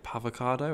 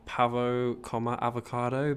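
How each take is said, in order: First: "Pavocado" run together as one word, ending on a rise; merged into one word. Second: "pavo," then a pause, then "comma, avocado" as distinct words; pavo, comma, avocado spoken separately. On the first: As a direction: blend "pavo" and "avocado" into a single "Pavocado". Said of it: "merged it together into". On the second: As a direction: say "pavo" and "avocado" apart with a clear break. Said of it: "tried saying". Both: Shown as a demonstration.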